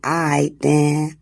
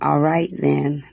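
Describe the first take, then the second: First: All right is squeezed into one syllable. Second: All right is said in full. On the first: "they say I then" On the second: "instead of saying all right then"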